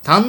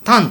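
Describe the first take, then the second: First: It has the Kansai pitch accent. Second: It has the Kanto pitch accent.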